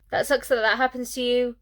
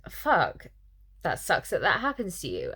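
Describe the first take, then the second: First: The same line again, higher and mocking; mocking repeat. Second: Said in the usual way. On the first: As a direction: parrot it back higher to show how clumsy it is. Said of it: "the other character replies". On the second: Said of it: "the main character says".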